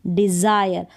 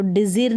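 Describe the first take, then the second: First: डिजायर said as "dizaayar" with the aay sound; डिजायर given as the right reading, "di-zaa-yar"; correct aay vowel. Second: डिजीर said as "dizeer" with a long ee; डिजीर demoed as the mistake, ee instead of aay; wrong ee vowel. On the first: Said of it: "तो डिजीर नहीं पढ़ेंगे इसको". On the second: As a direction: stretch the ee in डिजीर, as in the wrong reading. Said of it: "डिजीर नहीं पढ़ेंगे इसको". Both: Shown as a demonstration.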